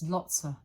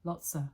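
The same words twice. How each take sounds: First: The word of almost disappears. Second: The same.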